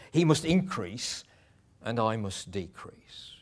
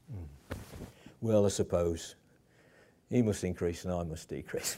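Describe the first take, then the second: First: With passion. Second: Reluctant, bitter. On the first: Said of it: "He says it with passion". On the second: Preacher mimicking a reluctant John, grudging and sour. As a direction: say it as if forced to give in. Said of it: "it's not said like that". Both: Shown as a demonstration.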